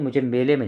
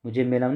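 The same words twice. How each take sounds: First: मेले with final "e", "mele"; corrected form. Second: मेला with final "aa", "mela"; wrong form. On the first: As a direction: lean on मेले with its "le" ending. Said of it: "मुझे मेले में जाना है". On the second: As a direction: say मेला with an "aa" ending as the mistake. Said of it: "मुझे मेला में नहीं". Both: Shown as a demonstration.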